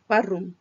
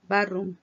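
No difference in how they are said.

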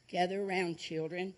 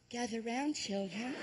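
First: The voice sounds deep and manly. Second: The voice sounds high and girlish. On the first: This is how the speaker thought he sounded. "this is what I recorded" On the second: This is how the speaker actually sounded on tape. "I sound just like a girl"

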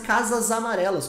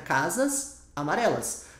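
First: The words run together, joined by a Z sound. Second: The words are said apart, ending in an S. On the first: "quando a gente fala junto, é como se ficasse casas amarelas, com som de Z" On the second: "Se você falar separado"

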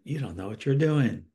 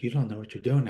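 First: It sounds harsh and critical. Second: It sounds calm and neutral.

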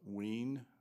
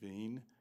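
First: It is said with an American English pronunciation. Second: It is said with a German pronunciation. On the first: "in American English that would be uh" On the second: "or in German"

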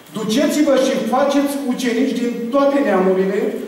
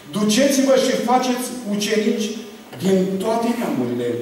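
Both takes have the same delivery.

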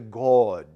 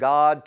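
First: It is said in an affected, put-on pious voice. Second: It is said in an ordinary speaking voice. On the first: "are you changing your tone of voice?" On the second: "changing God's name from God"

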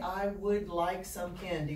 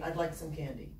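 First: I would is said as two full words. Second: I would is shortened to one syllable. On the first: The speaker calls it wrong. "We don't say" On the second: The speaker calls it right. "We say"

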